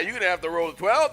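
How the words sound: It is said in a sassy, taunting tone. "I was kind of sassy"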